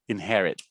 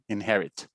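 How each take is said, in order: First: The final T is held without releasing air. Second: The final T is released with a puff. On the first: "Most Americans will hold it though" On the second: "Or you can aspirate that T if you want to"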